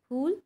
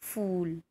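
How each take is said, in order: First: It begins with an aspirated 'ph' sound. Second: It begins with an 'f' sound. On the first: It means flower. The speaker calls it right. "फूल नहीं होता है" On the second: It sounds like the English word fool. The speaker calls it wrong. "हम वो भी गलत उच्चारण करते हैं"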